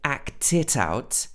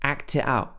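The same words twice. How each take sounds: First: Every t is clearly pronounced. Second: The t sounds are cut off by glottal stops. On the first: "with all the T's" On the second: "So this is what's called a glottal"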